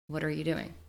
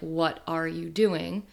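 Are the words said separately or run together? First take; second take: run together; separately. First: The words are run together into one stream. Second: Each word is said separately and clearly. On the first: "they say, ... the connected speech" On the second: "instead of saying like"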